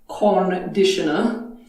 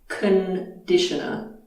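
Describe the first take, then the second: First: The first vowel is a full vowel. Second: The first vowel is a reduced schwa. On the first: The speaker calls it wrong. "It's not conditioner" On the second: The speaker calls it right. "First vowel is a schwa"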